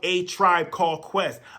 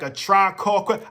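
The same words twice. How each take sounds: First: Each word is said clearly and separately. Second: The words are bunched together into one blur. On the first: The name is said as it really is. The speaker calls it right. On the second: The speaker did not yet know the name. The speaker calls it wrong.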